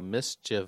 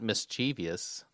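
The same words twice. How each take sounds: First: The word is said with three syllables. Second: The word is said with four syllables. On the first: The speaker calls it right. "it comes from the word mischief, so mischievous" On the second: The speaker calls it wrong. "Not mischievous"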